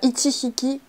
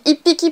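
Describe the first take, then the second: First: It is said with a full 'chi' syllable. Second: It is said with a doubled p sound. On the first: The speaker calls it wrong. "faites bien attention à pas dire" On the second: The speaker calls it right. "on dit ippiki pour un petit animal"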